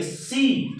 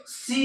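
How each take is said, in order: First: सी with a long, drawn-out ee; सी said as a stretched "seee"; long vowel. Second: सी stretched on a raised pitch; सी as a long, high "seee"; long, forceful vowel. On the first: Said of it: "दीर्घ उच्चारण के द्वारा किया जाता है". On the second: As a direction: draw out the ee in सी, high and softer. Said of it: "थोड़ा जोर से बोलेंगे". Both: Shown as a demonstration.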